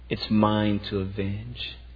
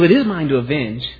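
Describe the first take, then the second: First: It is said in a calm, measured tone. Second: It is said in a frustrated, agitated tone. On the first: The one speaking is just and patient. The speaker calls it right. "There's a holy, calculated wrath that is just" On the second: The one speaking has lost control. The speaker calls it wrong. "Or maybe it's a frustrated God, a God who's lost control"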